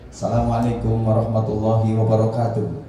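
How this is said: It is delivered like an emcee's welcome. It suits opening a ceremony. "Kalau M C sambutan ya kayak tadi"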